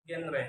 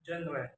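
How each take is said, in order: First: "genre" with a hard g; learner's mispronunciation. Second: Said in the usual way. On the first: Shown as a demonstration. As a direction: say "genre" as "ghenre". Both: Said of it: "is pronounced".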